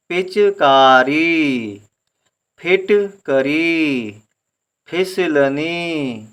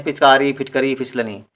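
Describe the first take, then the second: First: Very slow, each chunk drawn out; learner's split reading. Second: Words run smoothly, whole; fluent easy reading. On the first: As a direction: break each word up and stretch the vowels. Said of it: "उसका सही उच्चारण ये है कि पढ़ेंगे". (सीखते समय जैसा, बहुत धीरे खींचकर) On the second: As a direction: read the list off at an easy flowing pace. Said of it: "बड़े आराम से पढ़ते हैं". (आराम से, धाराप्रवाह) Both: Shown as a demonstration.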